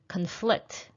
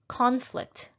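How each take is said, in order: First: The stress is on the second syllable. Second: The stress is on the first syllable. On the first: It is used as a verb. "Verb is conflict" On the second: It is used as a noun. "The next noun is conflict"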